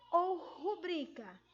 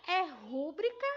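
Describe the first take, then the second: First: Slow rubrica with stress on BRI; middle-syllable stress. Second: Rúbrica with loud stress on RÚ; first-syllable stress. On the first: Pupil offering the teacher the other option, rubrica stressed on BRI. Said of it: "Ela é uma palavra paroxítona". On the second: Pupil asking the teacher which is right, rúbrica stressed on RÚ. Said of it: "Não vem acentuada na primeira sílaba". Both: Shown as a demonstration.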